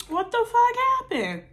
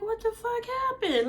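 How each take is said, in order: First: High and louder, half-shouted disbelief; loud, pitched-up outrage hit on fuck; mock shocked yell. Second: High, incredulous mock outrage; pitched way up in disbelief; stunned disbelief. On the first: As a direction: shriek the question at the friend. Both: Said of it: "And I'm like".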